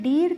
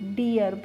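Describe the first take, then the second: First: The vowel is one long ee sound. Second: The vowel is split into ee then a. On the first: The speaker calls it wrong. "डीर करके पढ़ेंगे? नहीं पढ़ेंगे।" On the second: The speaker calls it right. "ई ए को मैंने आपको ई ए करके बताया"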